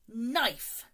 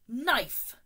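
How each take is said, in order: First: The K at the start is silent. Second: The K at the start is silent.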